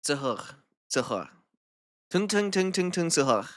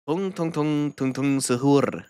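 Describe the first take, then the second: First: Sahur ending in a French throat R. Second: Suhoor with the final R rolled. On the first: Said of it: "Yung more French R". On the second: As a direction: roll the R at the end of suhoor. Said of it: "You don't need to roll the R". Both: Shown as a demonstration.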